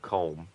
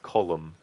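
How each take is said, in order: First: The name is said with one syllable. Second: The name is said with two syllables. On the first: The speaker calls it wrong. "instead of colm" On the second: The speaker calls it right. "the way that you do say it is column"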